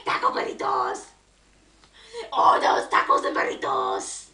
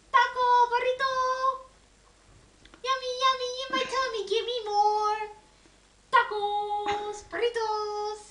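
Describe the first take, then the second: First: Rough, voiceless rasp for fun; silly raspy voice. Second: Little chanted ditty on held notes; sung, playful singsong. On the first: Parent amusing a baby with tacos and burritos, silly raspy voice. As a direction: playfully rasp it out without full voice. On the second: Parent singing a food ditty to a baby, playful singsong. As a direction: sing it simply to a baby. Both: Pretend.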